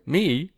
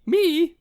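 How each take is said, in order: First: Said in the usual way. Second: Very high, louder squeaked "Me?"; high pitched voice. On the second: Real, not acted. Co-host protests being teased, in a high pitched voice. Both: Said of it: "Me in the high pitched voice".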